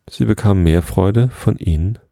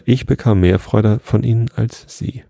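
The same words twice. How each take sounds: First: Said in the usual way. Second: "ich" lifted slightly higher as a contrast; stress on ICH. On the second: A narrator's reading. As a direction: put the emphasis on "ich" at the start. Corrected line contrasts ich with sie.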